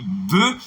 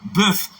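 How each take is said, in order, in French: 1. Il se prononce au pluriel. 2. Il se prononce au singulier. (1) "c'est pluriel" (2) "c'est singulier"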